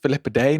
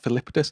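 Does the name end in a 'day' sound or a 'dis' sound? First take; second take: day; dis. First: The name ends with a 'day' sound. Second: The name ends with a 'dis' sound. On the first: The speaker calls it right. "It's pronounced Philippidae" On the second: The speaker calls it wrong. "not Philippidis"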